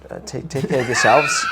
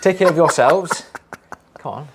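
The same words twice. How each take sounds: First: Breaking up with laughter; laughing through words. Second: Loud laugh-filled sign-off; laughing loudly. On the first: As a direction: giggle while saying it. Giggling through the sign-off. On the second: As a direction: crack up on every word. Repeat attempt, laughing harder. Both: Real, not acted.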